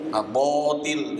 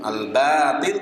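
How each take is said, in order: First: The vowel after b sounds rounded, like o. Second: The vowel after b sounds open, like a. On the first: The speaker calls it wrong. "Jangan bo" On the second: The speaker calls it right. "ba bukan bo"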